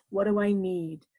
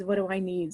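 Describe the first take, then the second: First: Lower, stress on I in need; calm inner question. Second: Lower, stress on What in need; quieter inner question. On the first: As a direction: ask yourself gently, I stressed. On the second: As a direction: softly ask yourself, What stressed. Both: Shown as a demonstration. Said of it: "Say to yourself".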